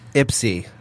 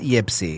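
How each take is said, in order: First: The name begins with an 'ip' sound. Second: The name begins with a 'yip' sound. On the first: The speaker calls it right. "Ypsy, not Yipsy" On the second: The speaker calls it wrong. "not Yipsy"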